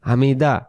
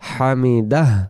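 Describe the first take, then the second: First: The word ends on a plain vowel. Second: The word ends with a pushed breathy h. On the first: The speaker calls it wrong. "তখন এই হাক্করটা আদায় হয় না।" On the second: The speaker calls it right. "হামিদাহ এমন হয়। তো এরকম করেই বলতে হবে।"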